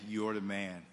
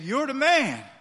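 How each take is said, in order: First: It is said in a serious, accusing way. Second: It is said in a cheerful, praising way. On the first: The listener is the guilty one. The speaker calls it right. "He said" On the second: The listener is being complimented. The speaker calls it wrong. "But he didn't say it that way"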